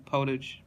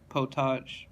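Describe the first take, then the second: First: "potage" said POH-tij, ending in a j sound like "cottage"; anglicised "potage", rhyming its end with "cottage"; English potage. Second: "potage" as poh-TAHZH; French potage. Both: Shown as a demonstration. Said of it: "two pronunciations of potage".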